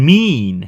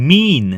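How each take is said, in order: Both takes have the same delivery.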